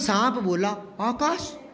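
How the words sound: The last word sounds astonished and exclamatory. The speaker calls it right. "ये आगे विश्व बोधक चिन्ह है, आश्चर्यचकित है"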